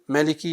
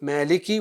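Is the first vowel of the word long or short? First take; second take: short; long. First: The first vowel is kept short. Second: The first vowel is drawn out long.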